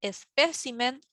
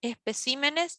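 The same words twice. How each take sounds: First: "espécimen" with the beat on "pé", tune rising; list-like rising "espécimen", stressed on "pé". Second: "especímenes" higher, with the beat on "cí"; contrasting plural "especímenes", weight moved to "cí"; stress shifted to CÍ. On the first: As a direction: hit the second syllable, es-PÉ-ci-men, in "espécimen". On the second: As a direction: lean on the third syllable, es-pe-CÍ-me-nes, in "especímenes". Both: Shown as a demonstration. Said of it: "de sílaba tónica al pluralizarse".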